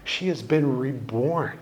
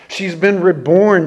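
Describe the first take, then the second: First: Said in the usual way. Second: "reborn" stressed, louder, falling; emphatic repeat. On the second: Shown as a demonstration. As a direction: drive home "reborn".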